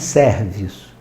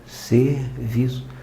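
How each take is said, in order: First: The first E is pronounced open. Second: The first E is pronounced closed. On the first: The speaker calls it wrong. "não é serviço" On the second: The speaker calls it right. "o E é fechado"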